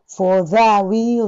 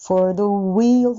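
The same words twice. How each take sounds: First: For the wheel with the jaw dropped open on the; wrong open the. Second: For the wheel with the barely voiced, mouth nearly closed; small the. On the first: Teacher imitating the unwanted open the. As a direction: let the burst out loud and open. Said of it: "嫌な感じは". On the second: Teacher modelling the correct tucked-in the. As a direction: tuck the in small, jaw hardly opening. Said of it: "ほとんど口開けないです". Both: Shown as a demonstration.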